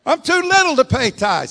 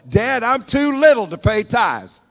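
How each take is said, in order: First: Put-on even higher, loud childish whine; pleading little boy. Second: Put-on high, loud, slow childish plea; pleading little boy. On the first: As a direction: beg it once more, pitched way up. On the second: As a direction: whine it like a boy begging his dad.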